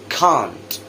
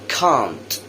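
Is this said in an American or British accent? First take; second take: British; British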